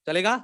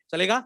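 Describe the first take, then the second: No difference in how they are said.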